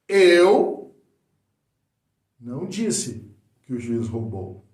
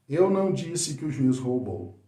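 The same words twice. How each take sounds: First: It is said with expressive vocal variation. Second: It is said flat, with plain words only.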